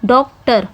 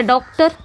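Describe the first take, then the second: First: डॉक्टर divided as डॉक्, टर; two separate syllables. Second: Said in the usual way. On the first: Shown as a demonstration. Teacher shows students both syllables of डॉक्टर, syllable by syllable. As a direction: say डॉक्टर in two distinct beats. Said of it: "देख सकते हो two syllable है". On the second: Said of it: "उसी तरह".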